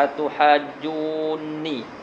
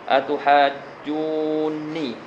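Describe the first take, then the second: First: The two n sounds merge into one doubled n. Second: The same.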